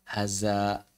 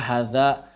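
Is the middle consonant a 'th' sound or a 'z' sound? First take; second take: z sound; th sound. First: The middle consonant is a 'z' sound. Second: The middle consonant is a voiced 'th' sound. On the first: The speaker calls it wrong. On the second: The speaker calls it right.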